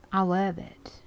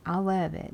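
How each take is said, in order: First: Whispered delight. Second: Said in the usual way. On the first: Real, not acted. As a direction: breathe it out in a whisper. Whispered then said aloud.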